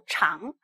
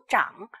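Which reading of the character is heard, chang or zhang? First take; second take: chang; zhang. First: It is read as chang, second tone. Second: It is read as zhang, third tone. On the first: It is the adjective meaning long. The speaker calls it wrong. "而不读长，长是形容词" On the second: It is the verb meaning to grow. The speaker calls it right. "所以这应该是读长"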